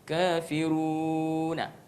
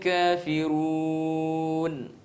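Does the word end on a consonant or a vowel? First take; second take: vowel; consonant. First: The word ends on an added vowel a. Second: The word ends on the consonant n. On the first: The speaker calls it wrong. "enggak bisa kafiruna" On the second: The speaker calls it right. "mati sukun"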